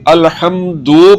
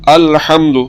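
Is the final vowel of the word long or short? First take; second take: long; short. First: The final u vowel is drawn out long. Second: The final u vowel is kept short. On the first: The speaker calls it wrong. "पेश को अगर लंबा करेंगे" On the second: The speaker calls it right. "दाल के ऊपर जो पेश है इसको हमने लंबा नहीं करना"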